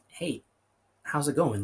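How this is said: It sounds like a sincere, caring question.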